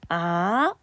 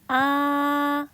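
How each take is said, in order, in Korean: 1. 중간 음에서 높은 음으로 올라가요. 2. 처음부터 끝까지 높고 평평하게 유지돼요. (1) "미에서 솔로 상승하는 음가입니다" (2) "솔음 높은 음이 쭉 연달아서 높은 음이 평범하게 발음하는 거죠"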